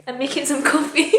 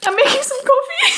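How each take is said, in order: First: Higher, put-on casual cover after crying; pretending composure. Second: Very high, squeaky laugh-through-tears voice; tearful laughing. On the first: Vlogger covering up tears over coffee, pretending composure. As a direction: act as if you didn't just cry. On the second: Real, not acted. Vlogger failing to hide a cry over coffee, tearful laughing. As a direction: lose the composure and squeak it out laughing. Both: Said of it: "Pretending I didn't just cry".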